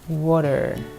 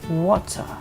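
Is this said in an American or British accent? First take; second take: American; British. First: It is said in an American accent. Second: It is said in a British accent. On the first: "in American accent they'll say it" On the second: "water, like that"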